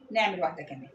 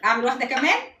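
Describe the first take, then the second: First: Falling statement, كمان dropping at the end; softer answer, pitch sinking through كمان. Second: Rising question on كمان; self-posed question, end swinging up; asking. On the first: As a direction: settle it with a low fall on كمان. Answer to her own question. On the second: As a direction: ask it, lifting كمان sharply at the end. Asks herself, then answers. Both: Acted.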